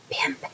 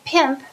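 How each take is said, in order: First: The word is whispered softly. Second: The word is spoken in a normal voice.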